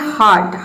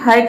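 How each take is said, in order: First: The vowel sounds like 'ar'. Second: The vowel sounds like 'er'. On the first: The speaker calls it right. "ये होता है हार्ट" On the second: The speaker calls it wrong. "ये हियर्ट या फिर हर्ट नहीं होता है"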